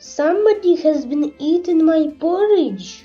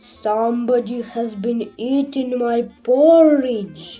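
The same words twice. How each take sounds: First: The voice is of middling size and pitch. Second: The voice is big, rough and gruff. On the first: "in her middle voice" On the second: "in his great rough gruff voice"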